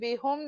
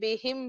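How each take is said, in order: First: The last vowel is an 'u' sound. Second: The last vowel is an 'i' sound. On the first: The speaker calls it wrong. "नहीं बोलेंगे" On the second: The speaker calls it right. "बल्कि बिही बिहिम बोलेंगे"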